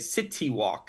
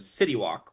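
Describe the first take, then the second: First: It is said with a Chinese-influenced pronunciation. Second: It is said with an American English pronunciation. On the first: This is how people in Shanghai say it. "People will say city walk" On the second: This is how Americans say it. "which is the way that we pronounce it for American English"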